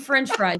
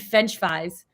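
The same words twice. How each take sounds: First: The R after the F is clearly pronounced. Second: The R after the F is left out. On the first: The speaker calls it right. "You're saying" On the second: The speaker calls it wrong. "you're not over here saying"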